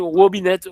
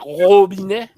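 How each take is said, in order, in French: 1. Le mot commence par un son W. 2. Le mot commence par un son R. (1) "W remplacer devant" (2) "nous pas dit robinet"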